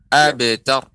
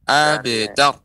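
Both takes have the same delivery.

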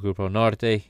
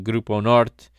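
First: It is said with a Spanish pronunciation. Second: It is said with a Portuguese pronunciation. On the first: "the Spanish pronunciation" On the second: "the Portuguese"

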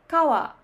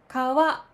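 First: The pitch starts high and falls. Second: The pitch starts low and rises. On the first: This is the Osaka pronunciation. "大阪では高いから低いになります。" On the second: This is the standard Tokyo pronunciation. "これはスタンダード、低いから高い。"

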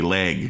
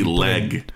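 First: The vowel sounds like 'ay', as in 'laig'. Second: The vowel is a short 'eh', as in 'peg'. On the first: "It sounds like I'm saying L-A-I-G" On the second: "But it's really leg"

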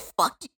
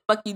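First: It is said aggressively, with force. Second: It is said calmly, simple and chill.

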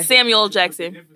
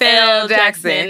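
First: The L is blended into the first name. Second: The L is said as a separate letter. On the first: "I say all together. They roll" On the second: "I don't say Samuel, like Samuel L. Jackson"

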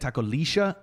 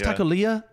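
First: The double L is said as a 'sh' sound. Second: The double L has no 'sh' sound. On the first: The speaker calls it right. "apparently double L is a sure sound in like some places" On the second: The speaker calls it wrong. "I thought it was Takolia"

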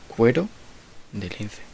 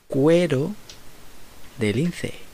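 First: It is said at normal speed. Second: It is said slowly.

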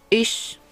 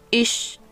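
First: The ch sounds like a Spanish ch. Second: The ch sounds like a Spanish ch.

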